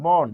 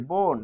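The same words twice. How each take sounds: First: বন with an open vowel, "bawn"; বন as open "bɔn", not "bon"; written-vowel pronunciation. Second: বন with a rounded o, "bon"; বন as "bon", closed o; changed-vowel pronunciation. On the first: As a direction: say বন as spelt, with inherent অ. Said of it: "তাহলে এটি হবে". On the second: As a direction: turn the অ of বন into ও. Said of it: "তাহলে উচ্চারণটা কি". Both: Shown as a demonstration.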